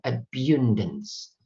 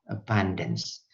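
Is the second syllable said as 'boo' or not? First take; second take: boo; not boo. First: The second syllable is said as 'bu'. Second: The second syllable is not said as 'bu'. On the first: The speaker calls it wrong. "Karena ini U kan kan enak saudara" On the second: The speaker calls it right. "tidak pakai bu"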